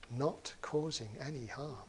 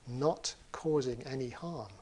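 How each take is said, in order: First: "not causing any harm" said softly, like an echo inside the head; quiet, inward "not causing any harm"; echoing inner thought. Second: Said in the usual way. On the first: Shown as a demonstration. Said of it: "it resounds around his rather thick skull inside". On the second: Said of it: "it resounds around his rather thick skull".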